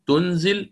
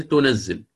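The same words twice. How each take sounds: First: تنزل as tunzil with a single z; تنزل said lightly with a silent n; light reading. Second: تنزل as tunazzil with a doubled z; تنزل stressing a doubled z; with shadda. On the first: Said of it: "قرأها بالتخفيف". (تنزل بالتخفيف وإسكان النون) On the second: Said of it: "بالتشديد". (تنزل بتشديد الزاي) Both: Shown as a demonstration.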